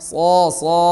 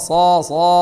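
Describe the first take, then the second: Both takes have the same delivery.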